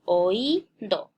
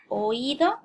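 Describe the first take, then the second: First: "Oído" broken up as o-í-do, stretched í, detached final do; syllable separation. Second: Said in the usual way. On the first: Shown as a demonstration. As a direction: say "Oído" slowly split at the hiatus, leaning on the í. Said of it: "se separa O y luego aquí nuevamente hay una separación". ("Oído" separado en sílabas, o-í-do, con la í alargada) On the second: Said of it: "Por ejemplo, la palabra".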